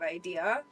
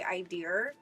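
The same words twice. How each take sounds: First: It ends on a vowel with no R. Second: An R sound is added at the end. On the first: "instead of idea" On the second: "a lot of words where we add an R into"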